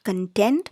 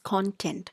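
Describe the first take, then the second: First: The stress is on the second syllable. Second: The stress is on the first syllable. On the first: It means satisfied. The speaker calls it wrong. "the pronunciation is not content" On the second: It means the list of chapter headings. The speaker calls it right. "the pronunciation is content"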